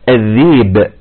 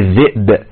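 First: The glottal stop is replaced by a long vowel. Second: The glottal stop is clearly pronounced.

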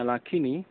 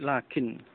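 First: The word ends with an added i vowel. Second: The word ends on a bare n sound. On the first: The speaker calls it wrong. "bukan lafadznya lakini, bukan" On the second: The speaker calls it right. "tetapi lakin dengan sukun"

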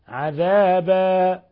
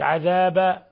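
First: The final vowel is held for a medium length. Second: The final vowel is cut short. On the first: The speaker calls it right. "وإنما حركتين" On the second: The speaker calls it wrong. "إن قلت عذابا فصارت فتحة وتكون قد أسقطت الألف"

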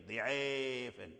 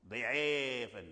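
No difference in how they are said.

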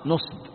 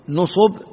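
First: The first vowel is 'a', second unvoweled: nasb. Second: Both vowels are 'u', as in nusub. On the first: "بفتح النون وإسكان الصاد" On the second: "بضمتين"

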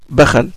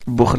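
First: Two a vowels, one in each syllable. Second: One short u vowel, then two consonants together. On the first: This is the reading of another tradition. "Ils disent bakhal" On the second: This is the reading of one tradition. "Et Hafs, ce que vous lisez en France, c'est bukhl"

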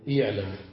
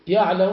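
First: The first vowel is a short i. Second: The first vowel is a short a. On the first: This form was avoided as too heavy. The speaker calls it wrong. "ولم يقولوا" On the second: This is the form the Arabs actually used. The speaker calls it right. "فقالوا"

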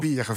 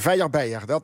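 First: It is pronounced in standard Dutch. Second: It is pronounced in the Sittard dialect.

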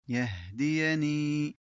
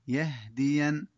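First: The word ends in a long i vowel. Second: The word stops short on the consonant n.

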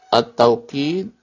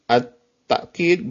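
First: A w sound follows the first vowel. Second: A glottal stop follows the first vowel. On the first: "Yang pertama at-tawqid bil waw" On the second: "yang kedua at-ta'kid bil hamzah"

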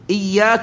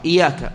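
First: The y sound is held long and doubled. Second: The y sound is short and single. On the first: The speaker calls it right. "وهي الصواب" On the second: The speaker calls it wrong. "خفف الياء فجعلها بحرف واحد"

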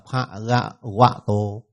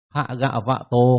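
First: The third syllable begins with a W sound. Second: The third syllable begins with a V sound. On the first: The speaker calls it wrong. "họ đọc thành W" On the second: The speaker calls it right. "có cái âm phát âm là V"

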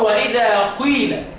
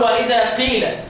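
First: The vowel after q has a u-like coloring. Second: The vowel after q is a plain i. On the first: The speaker calls it right. "هقول واذا قيل قيل هعمل اشمام" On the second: The speaker calls it wrong. "مش هقول واذا قيل"

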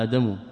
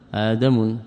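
First: The word ends without an added 'n' sound. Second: The word ends with an added 'n' sound. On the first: The speaker calls it right. "إنما آدم" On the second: The speaker calls it wrong. "ولا يصح ... يعني بصرف التنوين"

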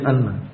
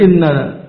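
First: The first vowel is an 'a' sound. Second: The first vowel is an 'i' sound. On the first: "boleh di fathah hamzahnya" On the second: "boleh dibaca kasrah"

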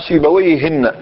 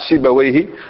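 First: The name ends with an added n sound. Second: The name ends without an added n sound. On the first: It refers to some unknown person of that name. "أي شخص اسمه سيبويه أنت لا تعرفه" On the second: It refers to the known person of that name. "ينطلق هذا الاسم على من؟ على الشخص الذي نعرفه"

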